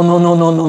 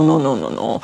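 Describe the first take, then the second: First: Said in the usual way. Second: "no, no, no, no" dropping low and soft; fading no. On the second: Shown as a demonstration. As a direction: let the no's sink away. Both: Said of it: "or no".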